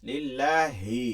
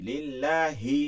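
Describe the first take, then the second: The two takes are said the same way.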